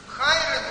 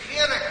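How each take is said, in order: First: The first vowel is said as the diphthong 'ai'. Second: The first vowel is said as a plain 'e'. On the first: "но только там «ай» как «эти»" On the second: "как произносится «хера»"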